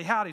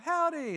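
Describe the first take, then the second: First: Said in the usual way. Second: High singsong echo of a greeting; kids echoing howdy. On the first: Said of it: "taught them how to say howdy". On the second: Retold or imitated. Kids in India repeating their Texan lesson, high imitation. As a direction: imitate kids parroting a new word. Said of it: "So they're like".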